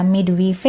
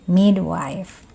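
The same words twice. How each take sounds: First: "midwife" read letter by letter as mid-wee-feh; wrong pronunciation. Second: "midwife" slowly as MID-wyfe, silent final e; correct pronunciation. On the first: Teacher shows students the misreading, "midwife" as mid-wee-feh. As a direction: say "midwife" as spelled, in three syllables, mid-wi-fe. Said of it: "Jadi bukan dibaca midwife". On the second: Teacher corrects students, "midwife" slowly as MID-wyfe. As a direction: say "midwife" in two syllables, ending -wife. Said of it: "tapi midwife". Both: Shown as a demonstration.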